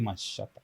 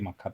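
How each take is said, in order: First: The middle consonant is an sh sound. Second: The middle consonant is a k sound. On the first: The speaker calls it right. "you say Mashata" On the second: The speaker calls it wrong. "you don't say Makata"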